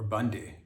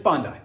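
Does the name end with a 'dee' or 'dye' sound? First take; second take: dee; dye. First: The name ends with a 'dee' sound. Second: The name ends with a 'dye' sound. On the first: The speaker calls it wrong. "not Bondi or Bundy" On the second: The speaker calls it right. "it's Bondi"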